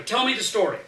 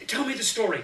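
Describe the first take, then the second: First: Put-on high, louder child's holler, pushing harder; insist, louder this time. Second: Put-on higher child's holler; a kid demanding a story, pitched up. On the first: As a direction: kid hollers harder at uncle for the story.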